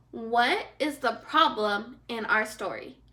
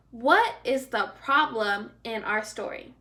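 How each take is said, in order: Both takes have the same delivery.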